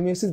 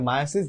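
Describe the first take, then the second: First: The first syllable sounds like "mee". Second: The first syllable sounds like "my". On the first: This is the older way of saying it. The speaker calls it wrong. "আগে মিওসিস বলা হতো" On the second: This is the current way of saying it. The speaker calls it right. "এখন আসলে এটাকে মায়োসিস বলা হয়"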